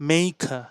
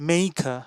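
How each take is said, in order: No difference in how they are said.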